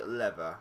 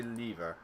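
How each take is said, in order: First: "lever" with a short e; "lever" like "levver", short first vowel; own pronunciation. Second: "lever" with a long ee; "lever" like "leever", long first vowel; other people's pronunciation. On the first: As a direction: say "lever" as LEV-er, rhyming with never. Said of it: "why I say lever". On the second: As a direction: say "lever" as LEE-ver, rhyming with beaver. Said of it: "Other people say lever". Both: Shown as a demonstration.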